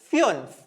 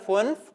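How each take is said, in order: First: The vowel is a rounded ü sound. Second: The vowel is a plain oo sound. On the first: "ഉ ഉംലാവ് വരുന്ന സമയത്ത്" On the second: "സാധാ യു ആണെങ്കിൽ നമ്മൾ ഊ എന്ന് വായിക്കും, അതായത് ഫുൻഫ് എന്ന് വായിച്ചിരുന്നു അവിടെ ഉംലാവ് ഇല്ലെങ്കിൽ"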